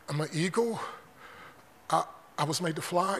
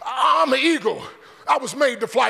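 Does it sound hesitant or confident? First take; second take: hesitant; confident. First: It sounds unsure and hesitant. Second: It sounds strong and confident.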